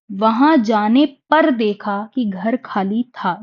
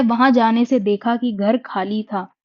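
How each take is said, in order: First: पर stressed, whole line said slowly; slow correction leaning on the word पर. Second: Said in the usual way. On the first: Shown as a demonstration. (पर पर ज़ोर, धीमे-धीमे) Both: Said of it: "जाने से देखा नहीं".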